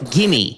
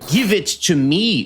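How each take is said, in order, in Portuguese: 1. As palavras são ditas juntas e reduzidas. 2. Cada palavra é dita separadamente e por completo.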